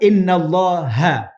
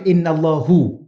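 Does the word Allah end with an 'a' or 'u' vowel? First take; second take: a; u. First: The word Allah ends with an a vowel. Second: The word Allah ends with a u vowel. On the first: The speaker calls it right. "kalau baca inna pun, inna Allaha" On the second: The speaker calls it wrong. "jangan baca innallahu"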